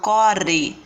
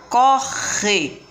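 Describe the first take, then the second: First: The R sound is soft and weak. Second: The R sound is strong and harsh. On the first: The speaker calls it wrong. "Eu não falo corre" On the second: The speaker calls it right. "Eu falo re mais forte"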